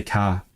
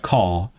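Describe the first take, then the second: First: Said in the usual way. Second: "car" with a posh, rounder, further-back vowel; posh pronunciation. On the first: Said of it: "I say car". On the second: Shown as a demonstration. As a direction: say "car" the posh way, close to "caw". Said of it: "like, a posh word like car".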